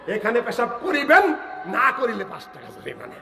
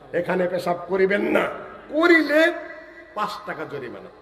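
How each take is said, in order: First: The pause comes before the word 'na'. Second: The pause comes after the word 'na'.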